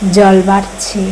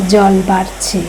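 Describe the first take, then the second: No difference in how they are said.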